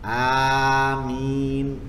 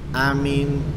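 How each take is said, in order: First: The first vowel is drawn out long. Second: The first vowel is kept short. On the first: "Hamzanya panjang tanpa ada tasdid pada mim" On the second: "Yang kedua bil qasr. ... Pendek. ... Hamzanya pendek"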